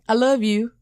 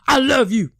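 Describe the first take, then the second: First: It is said in a warm, loving tone. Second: It is said in a harsh, hostile tone. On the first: The affection is sincere. The speaker calls it right. "he's going to feel like that's in a loving way" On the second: The speaker seems angry at the listener. The speaker calls it wrong. "it don't feel like love. It feel like you want to strangle me"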